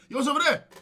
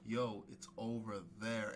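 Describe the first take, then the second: First: The phrase is spoken quickly. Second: The phrase is spoken slowly. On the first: The speaker calls it wrong. "saying things too quickly" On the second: The speaker calls it right. "say it again in a slower way"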